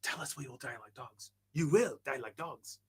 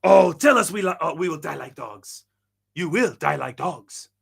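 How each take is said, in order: First: Very soft whispered movie quote; hushed imitation, slowing on the last phrase; imitated whisper. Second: Dramatic quote with a louder opening; quoted inflection, voiced out loud; imitated movie-line inflection. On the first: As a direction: whisper the line dramatically, barely voiced. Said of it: "he whispers it". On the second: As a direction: act out the line, drawing out the last phrase. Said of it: "That's the inflection he uses".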